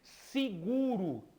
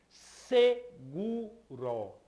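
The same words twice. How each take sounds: First: The first vowel is an I sound. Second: The first vowel is an E sound. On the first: This is how people normally say it. "ele é pronunciado com o som de I" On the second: This follows how it is written. "Ela se escreve seguro"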